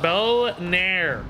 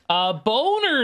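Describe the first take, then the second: First: The second syllable is a long 'nair' sound. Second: The second syllable is a short 'ner' sound. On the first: The speaker calls it right. "Make sure I really emphasize those" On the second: The speaker calls it wrong. "I don't think I said that right"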